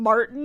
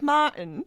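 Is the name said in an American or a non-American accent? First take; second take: American; non-American. First: The name is said in an American accent. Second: The name is said in a non-American accent. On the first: The speaker calls it wrong. "she says it with an American accent" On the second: The speaker calls it right. "instead of like Martin"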